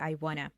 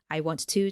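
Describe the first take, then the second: First: The words run together into a reduced form. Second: Each word is said fully and separately.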